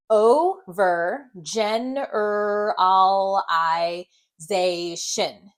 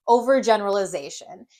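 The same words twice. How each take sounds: First: Overgeneralization stretched syllable by syllable, very slow; sounded out. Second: Said in the usual way. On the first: Shown as a demonstration. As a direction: sound out Overgeneralization part by part, each vowel held. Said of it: "sound this word out together". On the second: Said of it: "and then blend it".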